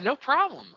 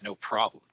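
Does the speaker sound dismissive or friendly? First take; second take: friendly; dismissive. First: It is said in a warm, friendly tone. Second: It is said in a curt, dismissive tone. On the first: The speaker is glad to help. The speaker calls it right. "I'm happy to help you" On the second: The speaker is being rude about helping. The speaker calls it wrong. "Well, then obviously I'm a dick, right?"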